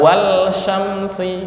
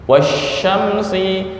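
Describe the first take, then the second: First: The l is pronounced clearly before the sh. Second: The l is merged into the sh sound. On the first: The speaker calls it wrong. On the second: The speaker calls it right.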